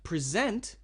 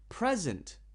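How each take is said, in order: First: The stress is on the second syllable. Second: The stress is on the first syllable. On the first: It is a verb meaning to give a presentation. "present means to give a presentation" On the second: It is a noun meaning a gift. "Present means a gift you give someone"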